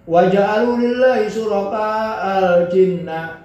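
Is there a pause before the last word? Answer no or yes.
no. The words run on with no break. The speaker calls it right.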